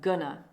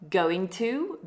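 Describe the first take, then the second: First: The words run together into one reduced word. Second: Both words are said fully and separately.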